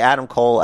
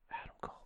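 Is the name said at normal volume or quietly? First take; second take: normal volume; quietly. First: The name is said at normal volume. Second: The name is said softly and quietly. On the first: The speaker expects the full reply. "at the normal thing" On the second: The speaker does not want to draw attention. "If you don't want to draw any attention to yourself, you have to say Adam Cole"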